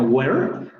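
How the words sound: The final r sound is clearly pronounced. "pronunciaríamos en inglés norteamericano where"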